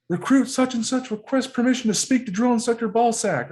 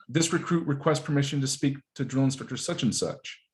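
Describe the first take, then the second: First: High, loud formal recruit holler; top-of-lungs recruit yell. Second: Said in the usual way. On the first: Acted. Marine showing how recruits hail the drill instructor, screamed. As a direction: belt out the request in one rigid run. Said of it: "scream it at the top of your lungs".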